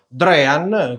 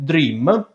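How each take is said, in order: First: The name ends with an n sound. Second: The name ends with an m sound. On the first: It matches the company's own pronunciation. The speaker calls it right. "è più corretto pronunciare proprio Drean" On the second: It sounds like the English word for dreaming. The speaker calls it wrong. "forse per l'assonanza con la parola in inglese sognare, quindi Dream"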